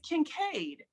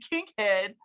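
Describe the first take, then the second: First: The name ends with a 'cade' sound. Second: The name ends with a 'head' sound. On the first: The speaker calls it right. "It's Kincaid" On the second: The speaker calls it wrong. "Everybody always calls me Kinkhead"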